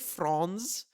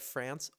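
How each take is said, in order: First: The name does not sound like France. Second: The name sounds like the word France.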